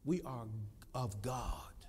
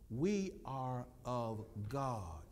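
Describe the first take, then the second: First: It is said at normal speed. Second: It is said slowly.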